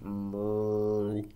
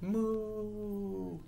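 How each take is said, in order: First: Long, low cow moo. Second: Soft, high, long moo. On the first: Reader demonstrates cow moos for the book, low. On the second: Reader demonstrates cow moos for the book, high. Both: Acted.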